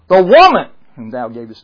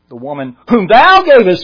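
First: The stress falls on the word woman. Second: The stress falls on the word thou. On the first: The woman is to blame. "That blames Eve" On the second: The one who gave her is to blame. "That way blames the Lord"

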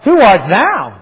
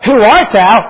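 First: The question sounds hostile and challenging. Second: The question sounds mild and curious. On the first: The asker means: who do you think you are? The speaker calls it right. "I think it was more" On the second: The asker sincerely wants to know who he is. The speaker calls it wrong. "I don't think it was more"

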